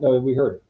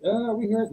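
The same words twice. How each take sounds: First: Said in the usual way. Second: High, tentative mock doubt; unsure. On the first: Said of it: "It was very loud". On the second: Imitating someone unsure they heard the sound, tentative. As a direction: say it like you barely heard it. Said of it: "It wasn't one of those, like".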